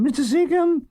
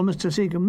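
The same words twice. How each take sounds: First: High calling Seacombe up the stairs. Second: Said in the usual way. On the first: Retold or imitated. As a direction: call Seacombe high, rising. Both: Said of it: "I hear a call".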